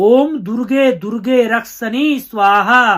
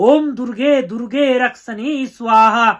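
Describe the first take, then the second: No difference in how they are said.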